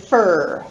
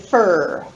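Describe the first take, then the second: First: The word is said reduced and unstressed. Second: The word is said reduced and unstressed.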